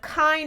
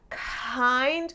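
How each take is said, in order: First: The word starts with a clean, non-breathy onset. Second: The word starts with an audible breathy huh. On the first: "Instead of kind" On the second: "it becomes kind ... giving a huh sound at the beginning"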